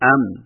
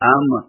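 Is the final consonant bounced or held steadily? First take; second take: held; bounced. First: The final consonant is held steadily without a bounce. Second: The final consonant is released with a jerky bounce. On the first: The speaker calls it right. "مضبوطی اور جماؤ سے بغیر جھٹکا دیے ادا کیا جاتا ہے" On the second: The speaker calls it wrong. "یوں جھٹکا دے کر پڑھنا ... غلط طریقہ ہے"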